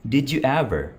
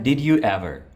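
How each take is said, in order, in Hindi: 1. शब्द छोटे होकर आपस में जुड़ जाते हैं। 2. हर शब्द पूरा और अलग-अलग बोला जाता है। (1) "Reduce करेंगे तो बनेगा" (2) "Normal sentence है"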